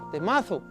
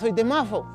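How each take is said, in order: First: The S in Mazo sounds like an S. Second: The S in Mazo sounds like an F.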